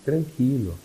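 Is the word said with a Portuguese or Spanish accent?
Spanish. It is said with a Spanish accent. It calms the listener down. "Um cara vira para você em espanhol e fala assim"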